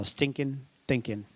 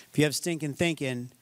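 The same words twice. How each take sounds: First: Drawled Arkansas "stinking thinking", soft and low; Arkansas twang. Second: Said in the usual way. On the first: Shown as a demonstration. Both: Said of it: "that's more Arkansas".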